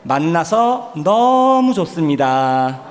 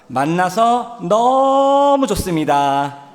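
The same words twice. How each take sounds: First: It is said plainly, without special emphasis. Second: The word 너무 is strongly emphasized.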